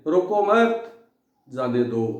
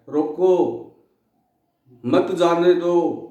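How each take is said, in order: First: There is a pause right after 'mat'. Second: There is a pause right after 'roko'. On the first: Do not stop the thieves, let them go. "इनके दोनों के अर्थ उल्टे हो गए" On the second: Stop the thieves, do not let them go. "रोको coma"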